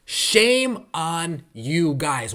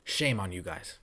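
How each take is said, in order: First: Slow, drawn-out Shame on you guys with weight on shame; slow scolding. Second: Muttered shame. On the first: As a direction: stretch out each word of Shame on you guys. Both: Real, not acted. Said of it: "repeated scolding".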